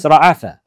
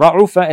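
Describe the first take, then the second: First: Ra'afa said with an open a in the middle, ra-A-fa; the preferred form Ra'afa, middle a; Ra'afa with the right middle a; correct Ra'afa. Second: Ra'ufa said with a u vowel in the middle, ra-U-fa; the weak form Ra'ufa, u in the middle; Ra'ufa with the wrong middle u. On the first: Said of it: "it's not Ra'ufa, it's Ra'afa". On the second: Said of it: "he pronounced it wrong". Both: Shown as a demonstration.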